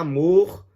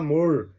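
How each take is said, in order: First: The R is a strong vibrating trill. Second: The R is a soft curled caipira R. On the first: "o que era" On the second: "se torna"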